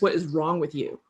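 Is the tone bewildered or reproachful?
reproachful. It sounds serious and scolding, with disapproval. The listener made a bad choice on purpose. "you seriously made that choice"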